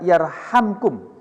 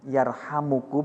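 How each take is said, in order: First: No vowel follows the m. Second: A u vowel follows the m. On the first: It is the result of the preceding command. "mimnya dibaca sukun, jadi dibaca jazm" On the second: It is a prayer asking for mercy. "mimnya dibaca dhamma, dibaca rofa"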